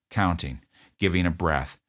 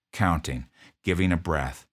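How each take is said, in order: Both takes have the same delivery.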